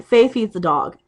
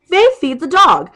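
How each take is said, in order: First: Said in the usual way. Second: Higher, louder and slower on Faith feeds the dog; imitating shouting back at a friend; loud mocking retort. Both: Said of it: "That's what it is".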